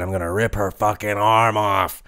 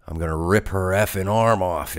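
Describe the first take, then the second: First: Lightly voiced angry wrestler threat; a hint of a furious wrestler; uncensored threat. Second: Said in the usual way. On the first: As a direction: give it her real words with a little bite. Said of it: "She said". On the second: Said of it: "except she didn't say effing".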